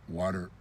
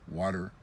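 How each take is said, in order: Both takes have the same delivery.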